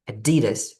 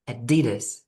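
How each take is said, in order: First: It is said with an American accent. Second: It is said with an American accent.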